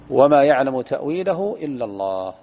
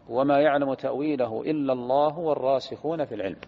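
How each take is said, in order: First: It stops with a pause after illa Allah. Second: It runs on without pause after illa Allah.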